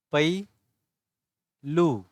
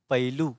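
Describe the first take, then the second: First: पैलू split as "pai... loo", with a long gap; very slow, separated syllables in पैलू. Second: पहलू joined as "pailoo", no gap; read as one word. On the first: (पैलू अक्षर-अक्षर अलग करके) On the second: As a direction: blend पहलू smoothly as "pai-loo". (पहलू एक साथ जोड़कर) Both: Shown as a demonstration. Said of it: "पढ़ोगे कैसे?".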